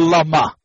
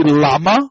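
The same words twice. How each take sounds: First: Lama stressed as la-MA; last-syllable stress. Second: Lama stressed as LA-ma; first-syllable stress. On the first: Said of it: "or the last syllable". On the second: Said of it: "in the first syllable". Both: Shown as a demonstration.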